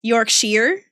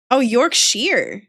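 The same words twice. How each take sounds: First: "Yorkshire" with a rising question at the end. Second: Slow "Oh, Yorkshire", falling at the end; dawning realization. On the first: Streamer checking a word with chat, questioning. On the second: Streamer catching on to chat's word, slow realization. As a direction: draw out "Yorkshire" as it clicks, ending down. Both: Real, not acted.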